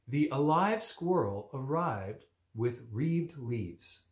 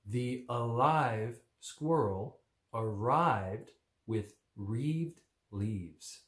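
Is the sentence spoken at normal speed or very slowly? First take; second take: normal; slow. First: The sentence is spoken at a normal pace. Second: The sentence is spoken at a very slow pace.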